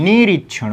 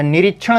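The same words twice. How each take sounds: First: निरीक्षण with a stretched "nee" at the start; long first ī. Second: निरीक्षण with a quick short "ni"; short first i. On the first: Teacher giving students the other form, long-ī निरीक्षण. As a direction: hold the first vowel of निरीक्षण. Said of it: "निरीक्षण होता है". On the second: Teacher showing students the misspelling, short-i निरीक्षण. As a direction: keep the first vowel of निरीक्षण brief. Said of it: "निरीक्षण नहीं". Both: Shown as a demonstration.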